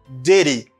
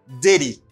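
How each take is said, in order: No difference in how they are said.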